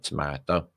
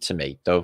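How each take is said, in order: First: It is said with a British pronunciation. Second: It is said with an American pronunciation.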